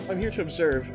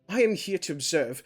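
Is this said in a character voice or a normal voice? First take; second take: normal voice; character voice. First: It is said in the speaker's own normal voice. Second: It is said in a put-on character voice. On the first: The speaker calls it wrong. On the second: The speaker calls it right.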